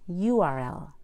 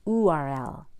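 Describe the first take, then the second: First: The U starts with a Y sound. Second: The U starts with a plain oo sound. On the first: The speaker calls it right. "it is" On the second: The speaker calls it wrong. "It is not"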